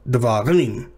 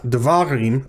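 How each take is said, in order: First: The stress falls on the last syllable. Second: The stress falls before the last syllable. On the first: The speaker calls it right. "but davarim. Right? So rim is the tonic syllable" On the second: The speaker calls it wrong. "not davarim"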